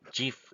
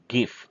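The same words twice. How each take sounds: First: It begins with a soft J sound. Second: It begins with a hard G sound. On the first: "started pronouncing GIF instead" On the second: "graph is G instead of J"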